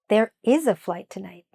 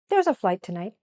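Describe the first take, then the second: First: The verb is said in full and stressed. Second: The verb is contracted and unstressed.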